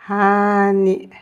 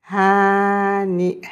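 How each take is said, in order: The two takes are said the same way.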